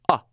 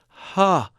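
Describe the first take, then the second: First: The vowel starts abruptly with a sharp catch. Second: The vowel starts gently with breathy air. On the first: "a hard onset" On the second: "a soft onset"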